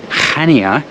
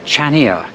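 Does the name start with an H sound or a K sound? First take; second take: H sound; K sound. First: The name starts with a soft H sound. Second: The name starts with a hard K sound. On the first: The speaker calls it right. "this place is called Chania, it's got a silent C" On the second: The speaker calls it wrong. "not Chania"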